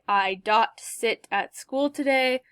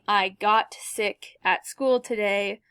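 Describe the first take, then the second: First: The second word begins with a D sound. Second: The second word begins with a G sound. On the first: The speaker calls it wrong. "they might say something like" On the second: The speaker calls it right. "instead of saying"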